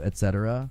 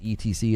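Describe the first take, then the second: First: It is said as the full two words. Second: It is spelled out as three separate letters. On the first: "instead of et cetera"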